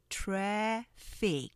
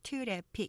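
First: Two syllables are spoken, the first one stressed. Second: Three even syllables are spoken. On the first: The speaker calls it right. "이음절로 하시면서 앞에 액센트 살짝 강조하시면" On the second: The speaker calls it wrong. "우리가 보통 트래픽 이렇게"

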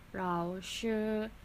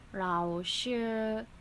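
No difference in how they are said.

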